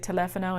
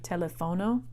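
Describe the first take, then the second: First: The stress is on the second syllable. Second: The stress is on another syllable. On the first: The speaker calls it right. "Teléfono also has an accent mark on that E, so you'll say teléfono" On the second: The speaker calls it wrong. "instead of"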